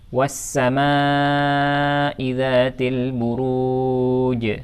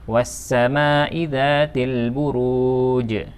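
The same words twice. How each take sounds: First: The long vowel is held about four counts. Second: The long vowel is held only two counts. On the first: The speaker calls it right. "Mad muttasil mestinya dibaca minimal empat harokat" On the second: The speaker calls it wrong. "ketika dibaca dua harokat ia menyalahi hukum tajwid"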